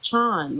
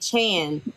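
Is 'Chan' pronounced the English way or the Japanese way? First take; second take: Japanese; English. First: Chan is pronounced like the Japanese honorific. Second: Chan is pronounced like the English surname. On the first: The speaker calls it right. "but really it's it's Chan. ... you hear it all the time in anime" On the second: The speaker calls it wrong. "Everyone wants to say Chan, but I think they're just so conditioned to like you know Jackie Chan"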